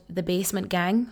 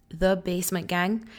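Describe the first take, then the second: No difference in how they are said.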